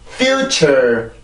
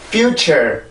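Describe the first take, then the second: First: The pitch drops flat on the second syllable. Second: The pitch rises again on the second syllable. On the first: The speaker calls it wrong. "그냥 자연스럽게 뚝 떨어지면" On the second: The speaker calls it right. "떨어뜨리지 말고 한 번 더 올라와야"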